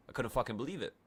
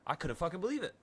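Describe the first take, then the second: First: Said in the usual way. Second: Higher, rising in disbelief. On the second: Retold or imitated. Telling the free ticket story, higher and disbelieving. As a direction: lift it up, still can't believe it.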